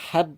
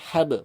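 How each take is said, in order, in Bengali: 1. শেষের b কোনো ঝাঁকুনি ছাড়াই বন্ধ করা হয়। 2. শেষের b প্রতিধ্বনিত ঝাঁকুনি দিয়ে ছাড়া হয়। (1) "হ্যাব না করে" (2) "বা কলকলা হবে"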